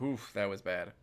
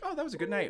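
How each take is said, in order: First: Grimacing, slightly lower; regretful memory. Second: Fond, a touch higher; fond memory. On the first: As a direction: wince at the memory. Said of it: "or, like". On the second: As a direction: remember the night fondly. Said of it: "You can either think". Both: Shown as a demonstration.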